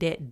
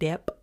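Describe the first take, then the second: First: The b is silent in this word. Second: The b is sounded out in this word.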